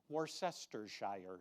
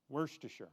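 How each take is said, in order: First: Every syllable is said out separately. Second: The word is run together quickly.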